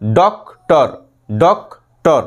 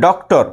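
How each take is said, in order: First: doctor split into ডক, pause, টর; syllable break. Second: Said in the usual way. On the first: Shown as a demonstration. Teacher shows two parts to students, doctor broken after ডক. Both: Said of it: "দুটো পার্টে".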